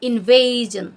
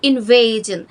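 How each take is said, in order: Both takes have the same delivery.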